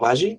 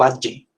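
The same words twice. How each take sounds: First: The first consonant is soft and continuous. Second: The first consonant is a full stop closure. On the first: "usted como tal no está diciendo como valle" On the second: "sino que está diciendo valle"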